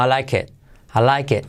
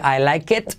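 First: "I like it" como "alaiké", casi sin t; T final muda. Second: "I like it" con la t final pronunciada, subiendo; T final marcada. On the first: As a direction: di "I like it" tragándote la t final. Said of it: "casi no se pronuncia". ("I like it" ligado, descendente, sin t) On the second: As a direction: di "I like it" rematando la t. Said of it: "No se dice". ("I like it" con "it" completo) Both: Shown as a demonstration.

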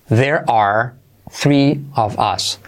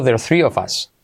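First: Very slow, word by word; "There are" as two separate, drawn-out words; full uncontracted form. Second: "There are" run together as "there're"; "There are" merged, the "are" nearly vanishing; contracted. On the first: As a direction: model it slowly with gaps between words. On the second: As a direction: squeeze "There are" into one quick word, "ther". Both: Shown as a demonstration. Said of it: "Incluso contraído".

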